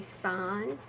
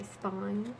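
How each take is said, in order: First: Spine as "spahn"; Southern pronunciation. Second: Spine with a full "eye" vowel; standard pronunciation. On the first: Telling viewers how Southerners say it, spine as "spahn". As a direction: flatten the long i in spine to "ah". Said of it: "We also say spine". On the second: Showing what Southerners don't say, spine with a full long i. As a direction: say spine as "spyne", with a clear glide. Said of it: "We don't say spine". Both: Shown as a demonstration.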